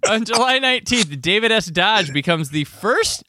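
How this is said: The tone is light and upbeat. It sounds like ordinary, casual news. The speaker calls it wrong. "I shouldn't say this like this because I was like, oh, this is some news"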